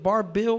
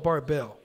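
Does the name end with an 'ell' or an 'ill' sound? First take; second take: ill; ell. First: The last syllable ends with an 'ill' sound. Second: The last syllable ends with an 'ell' sound. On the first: The speaker calls it right. "It's ILL" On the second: The speaker calls it wrong. "Not ELL"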